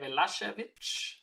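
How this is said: The middle consonant is an sh sound. This is how Serbians would say it. "in Serbia, we would probably say"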